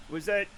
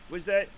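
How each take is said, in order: Both takes have the same delivery.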